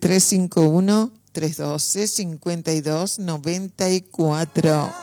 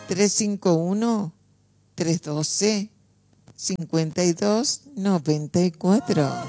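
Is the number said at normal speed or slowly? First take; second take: normal speed; slowly. First: The number is said at normal speed. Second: The number is said more slowly.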